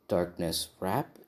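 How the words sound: It sounds confused and questioning.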